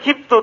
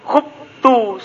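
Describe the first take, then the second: First: The first vowel is an i sound. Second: The first vowel is a u sound. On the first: It sounds like the active form, so the meaning is unclear. The speaker calls it wrong. "Jangan bilang khiftu" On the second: It marks the passive form, unlike the active. The speaker calls it right. "tapi bilangnya apa? Khuftu"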